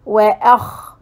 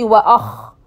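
First: وأخ with a light, thin opening vowel; correct light vowel. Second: وأخ with a heavy, backed vowel; mistaken heavy vowel. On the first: Teacher models the word for students, light vowel in وأخ. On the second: Teacher shows students what to avoid, heavy vowel in وأخ. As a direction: mispronounce وأخ with too dark a vowel. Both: Shown as a demonstration. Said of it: "Don't say وأخ".

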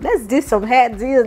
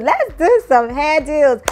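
First: Said in the usual way. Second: Higher, louder, slow singsong on "Let's do some hair deals"; drawn-out singsong pitch. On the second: Shown as a demonstration. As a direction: stretch "Let's" high and sing the deal out.

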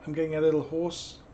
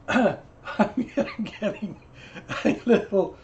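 First: Said in the usual way. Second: Mock hoarse voice. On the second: Shown as a demonstration.

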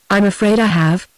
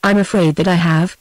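First: Mildly reluctant admission. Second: Mildly obedient repetition. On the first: Woman admitting she has missed him, reluctantly. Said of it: "she said reluctantly". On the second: Julia saying it again for him on the phone, obediently. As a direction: repeat it dutifully, understated. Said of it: "Julia said obediently". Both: A narrator's reading.

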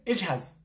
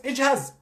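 First: Said in the usual way. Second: اجهز snapped out high and firm; a doctor jolting a frightened patient, emphatic; emphatic command. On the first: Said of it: "مش جاهز؟". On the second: Shown as a demonstration. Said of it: "طيب أنت مش جاهز؟".

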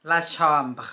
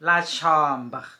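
First: La chambre again, steady and falling at the end; French model repeat. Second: La chambre, said clearly for learners; French model word. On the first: Teacher repeating the word for Thai learners, careful French. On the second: Teacher to Thai learners, a careful French model. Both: Shown as a demonstration. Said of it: "ห้องนอน la chambre".

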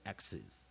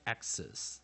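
First: "axis" with a short i in the second syllable; short-i ending. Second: "axis" with a schwa in the second syllable; schwa ending. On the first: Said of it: "有的人会偏向". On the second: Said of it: "偏向E跟二都有". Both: Shown as a demonstration.

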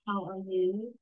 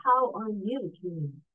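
First: Mildly sighed greeting question. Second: Slow, modulated cheerful greeting. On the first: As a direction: ask it with a slight, impolite sigh. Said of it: "not with a sigh". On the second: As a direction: ask it cheerfully, taking your time. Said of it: "modulate the cheerful voice". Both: Shown as a demonstration.

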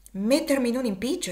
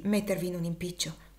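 First: Mock his worry with dry irony; amused, ironic repetition on a rising tune; ironic echo. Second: Said in the usual way. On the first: A narrator's reading. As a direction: echo the words back with a wry rising lilt. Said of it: "con una certa espressione singolare e ironica". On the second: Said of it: "esclamò Finia".

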